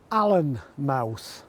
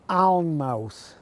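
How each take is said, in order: First: The first part has two syllables, like Allen. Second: The first part is one syllable, like Aln. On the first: The speaker calls it wrong. "the correct pronunciation for this village is Allenmouth. Well, I'm obliged to tell you they are wrong" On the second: The speaker calls it right. "It's Alnmouth because the village is at the mouth of the River Aln"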